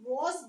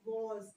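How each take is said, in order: First: It is said with a British English pronunciation. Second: It is said with an American English pronunciation. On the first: "वॉज बोला जाता है British English में" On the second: "American English में वॉज"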